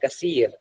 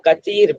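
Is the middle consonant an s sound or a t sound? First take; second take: s sound; t sound. First: The middle consonant is an s sound. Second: The middle consonant is a t sound. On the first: "सा को सा पढ़ते हैं कसीर" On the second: "वो कतीर पढ़ते हैं"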